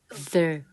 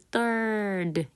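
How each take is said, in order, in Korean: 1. 혀를 이 사이에 끼우고 시작해요. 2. 한국어의 딱딱한 d 같은 소리로 시작해요. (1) "th를 혀를 내서 third 하면 소리가 좀 다르죠" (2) "떨이 하는 그 third 이게 아니고"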